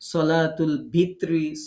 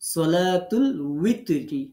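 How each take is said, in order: First: The second word begins with a v sound. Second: The second word begins with a w sound. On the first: The speaker calls it wrong. "সঠিকটা না জানার কারণে" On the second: The speaker calls it right. "ওয়াজের উই উই"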